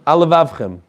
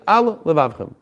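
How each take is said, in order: First: The two words run together without a pause. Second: A short pause separates the two words. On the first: The two identical sounds merge into one. The speaker calls it wrong. "if you said it quickly, it might sound" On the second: Both identical sounds are heard separately. The speaker calls it right. "you have to say"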